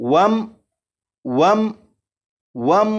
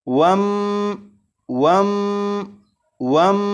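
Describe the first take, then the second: First: The final m stops cleanly without hum or echo. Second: The final m is held with a nasal hum. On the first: The speaker calls it right. "जैसे ही मीम साकिन पर पहुंचे तो आवाज खत्म" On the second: The speaker calls it wrong. "इस मीम साकिन पर गुन्ना नहीं करेंगे, यानी इसे इस तरह से नहीं पढ़ेंगे।"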